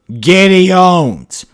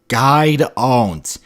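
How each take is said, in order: First: The name is said in full as 'Gideon'. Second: The name is squashed into one syllable, 'guide'. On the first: The speaker calls it right. "pronounce it the way it was supposed to be" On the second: The speaker calls it wrong. "messed up another character's name"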